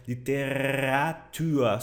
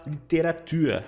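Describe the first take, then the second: First: "literatura" slowly, with the R growled in the throat; throaty growled R. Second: "literatura" with a light R tapped on the tongue tip. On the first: Teacher applies the dog growl to the word, throaty growled R. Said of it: "esse R no fundo da garganta". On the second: Teacher offers an easier option for students, tongue-tip R. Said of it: "Usa o R na ponta da língua". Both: Shown as a demonstration.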